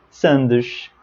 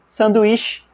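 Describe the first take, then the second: First: "sandes" said lower, Portuguese style; Portugal word. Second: "Sanduíche" said higher, Brazilian style; Brazilian word. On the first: Teacher to students, contrasting the Portuguese word. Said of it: "sandes em português europeu". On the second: Teacher to students, contrasting the Brazilian word. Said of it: "sanduíche em português brasileiro". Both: Shown as a demonstration.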